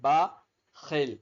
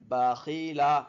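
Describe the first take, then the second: First: The word ends on a consonant, stopped short. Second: The word ends with an open vowel.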